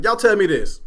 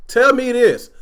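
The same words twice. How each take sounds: First: Said in the usual way. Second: Insistent demand to the audience; emphatic repeat. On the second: Real, not acted. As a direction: Tell punched, a bit higher and louder.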